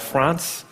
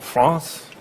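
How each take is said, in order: First: It is said with an English pronunciation. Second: It is said with an attempted French pronunciation.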